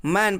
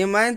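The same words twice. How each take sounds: First: "मैन" starting directly with म; correct reading. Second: "ए मैन" with ए sounded ahead of the word; wrong reading. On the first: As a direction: read "मैन" as a single word, no letter name. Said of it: "हम क्या पढ़ रहे हैं". ("मैन" को सीधे म से सही पढ़ना) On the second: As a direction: put the extra vowel before मैन in "ए मैन". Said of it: "तो हम नहीं ना पढ़ रहे हैं". ("ए मैन" आगे ए लगाकर गलत पढ़ना) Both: Shown as a demonstration.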